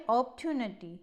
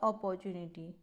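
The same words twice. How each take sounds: First: The word is said in a standard accent. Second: The word is said in an Indian accent. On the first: The speaker calls it right. "इसका सही pronounce" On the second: The speaker calls it wrong. "It's not"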